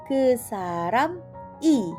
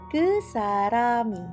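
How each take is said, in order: First: The final i is said slowly and separately. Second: The final i is said quickly, linked to saram.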